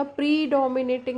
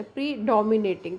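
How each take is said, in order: First: predominating with a heavy "pree" at the front; stress on PRE. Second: predominating with the stress on "dom", "pree" held down. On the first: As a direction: overstress the first syllable "pree" in predominating. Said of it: "pre को हम बहुत ज़्यादा". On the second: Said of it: "डी के ऊपर stress आ जाता है". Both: Shown as a demonstration.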